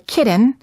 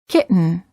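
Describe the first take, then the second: First: The T is released before the N. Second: The T is held before the N. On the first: The speaker calls it wrong. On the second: The speaker calls it right. "say kitten"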